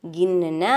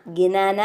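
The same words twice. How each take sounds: First: ഗിന്ന with a doubled ന and no vowel in between; correct reading. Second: ഗിനാന slowly with a full vowel between the two ന; wrong reading. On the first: Teacher gives children the correct ഗിന്ന. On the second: Teacher shows children the wrong reading ഗിനാന, slowly. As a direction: say ഗിനാന the wrong way, every syllable spelt out. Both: Shown as a demonstration. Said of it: "ഗിനാന അല്ല".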